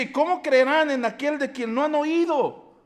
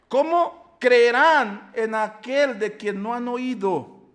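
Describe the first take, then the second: First: Said in the usual way. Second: Louder and slow, leaning on "¿Cómo creerán"; slow emphatic repeat. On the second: Acted. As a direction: read the verse again slowly, weighing each word. Repeating the verse for weight.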